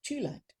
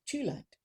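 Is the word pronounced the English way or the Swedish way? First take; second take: Swedish; Swedish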